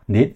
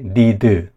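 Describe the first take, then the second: First: The word is said as one single syllable. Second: The word has an extra vowel, making two syllables. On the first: The speaker calls it right. "다 이름절 단어인 거예요" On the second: The speaker calls it wrong. "이게 아니라"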